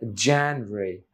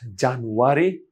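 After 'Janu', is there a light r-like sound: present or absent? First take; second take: present; absent. First: A light r-like sound follows the 'nu' syllable. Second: No light r-like sound follows the 'nu' syllable. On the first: The speaker calls it right. "it's January" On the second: The speaker calls it wrong. "not January"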